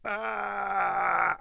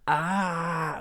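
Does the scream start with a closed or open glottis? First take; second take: closed; open. First: The scream starts with the glottis closed. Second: The scream starts with the glottis open. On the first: The speaker calls it right. "I can scream with the glottis closed" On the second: The speaker calls it wrong. "with the glottis open"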